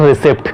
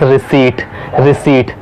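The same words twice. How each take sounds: First: "receipt" as ri-SIPT, p sounded; short "i" and audible "p" in "receipt"; wrong pronunciation. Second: "receipt" as ri-SEET, silent p; long "ee", no "p" in "receipt"; correct pronunciation. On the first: Teacher shows the mistake, "receipt" with sounded "p". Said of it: "It is not". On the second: Teacher gives the fix, "receipt" said ri-seet. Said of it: "Correct pronunciation is". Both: Shown as a demonstration.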